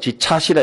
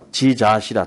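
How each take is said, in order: First: The second syllable begins with an aspirated ch sound. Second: The second syllable begins with a plain j sound. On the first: The speaker calls it wrong. "그럼 잘못 읽은 거라" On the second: The speaker calls it right. "지자시라 이렇게 해야 되는데"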